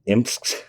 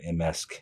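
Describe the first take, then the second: First: The m and s are said together, no vowel. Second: A vowel sound is inserted between m and s. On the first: "I think I always say Imsk" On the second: "I just insert imaginary v- vowels"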